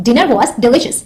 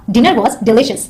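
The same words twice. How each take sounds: The two takes are said the same way.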